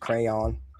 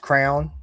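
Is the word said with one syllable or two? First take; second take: two; one. First: The word is said slowly with two syllables. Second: The word is said quickly as one syllable. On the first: "I guess it really is crayon" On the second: "you say it really fast"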